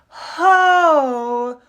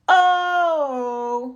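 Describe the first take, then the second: First: The vowel starts with a breathy h. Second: The vowel starts with a glottal catch. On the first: "play around with the aspirates" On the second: "with that glottalized onset"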